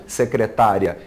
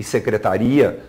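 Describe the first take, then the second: First: "secretária" stressed se-cre-TÁ-ria. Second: "secretaria" stressed se-cre-ta-RI-a. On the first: Teacher illustrates the written accent, stress on TÁ. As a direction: lean on TÁ in "secretária". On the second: Teacher illustrates a word without accent, stress on RI. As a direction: lean on the RI in "secretaria". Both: Shown as a demonstration. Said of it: "para demarcar a sílaba tônica".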